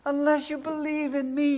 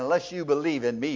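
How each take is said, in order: First: It is said in a warm, compassionate way. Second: It is said in an offhand, uncaring way. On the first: The speaker cares about the listener. The speaker calls it right. "can you hear the compassion?" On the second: It is a blunt statement of fact. The speaker calls it wrong. "He's not just telling me, hey man"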